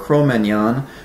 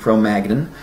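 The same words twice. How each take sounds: First: It is pronounced in a non-American way. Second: It is pronounced the way most Americans would.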